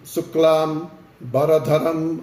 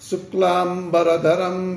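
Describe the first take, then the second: First: The word is split with a break after shuklam. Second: The word is said joined without any break. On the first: The speaker calls it wrong. "చాలామంది శుక్లాం బరధరం అంటారు. అలా విడదీయకూడదు" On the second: The speaker calls it right. "శుక్లాంబరధరం విష్ణుం అనాలి"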